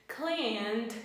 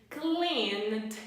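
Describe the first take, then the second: The two takes are said the same way.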